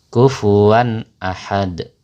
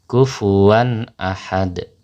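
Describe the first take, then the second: No difference in how they are said.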